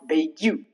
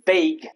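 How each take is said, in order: First: It ends with an added 'you' sound. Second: It ends without a 'you' sound. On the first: The speaker calls it wrong. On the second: The speaker calls it right. "rules where you remain silent, ending in G U E"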